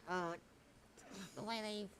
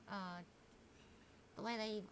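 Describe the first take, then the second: No difference in how they are said.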